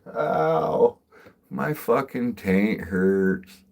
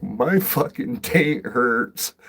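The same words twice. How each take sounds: First: Loud, high "Ow", then slow drawn-out complaint; milk the pain, louder and slower; mock pained whine. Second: Loud, high, slow exaggerated complaint; mock pained whine. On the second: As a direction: whine it out like it really hurts. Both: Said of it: "I'm like".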